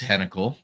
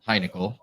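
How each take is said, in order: First: The first syllable sounds like 'hen'. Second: The first syllable sounds like 'hine'. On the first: The speaker calls it right. "it's Hennikel" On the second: The speaker calls it wrong. "It's not Heinickel"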